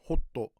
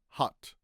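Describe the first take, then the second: First: An extra vowel follows the final t. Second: The word ends cleanly on the t. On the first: "In katakana, it's hotto" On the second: "But in English, it's ha, hot"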